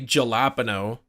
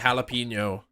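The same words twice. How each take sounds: First: The word begins with a j sound. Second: The word begins with an h sound. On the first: The speaker calls it wrong. "You don't say jalapeno" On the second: The speaker calls it right. "cuz it's like jalapeno"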